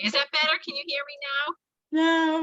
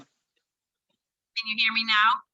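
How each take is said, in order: First: Less tinny connection; bad line, a bit improved; slightly clearer phone line. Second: Tinny bad phone line; muffled through a weak connection; tin can phone. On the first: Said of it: "that's a little bit better". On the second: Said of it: "sound like you're talking through a tin can". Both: Real, not acted.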